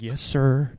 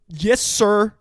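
First: It is said quietly. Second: It is said loudly.

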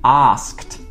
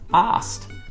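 First: The K sound is pronounced in the cluster. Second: The K sound is dropped from the cluster.

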